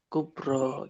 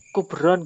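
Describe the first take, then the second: First: The word ends without a final n sound. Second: The word ends with an added n sound. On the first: The speaker calls it right. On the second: The speaker calls it wrong. "Kubron nggak boleh"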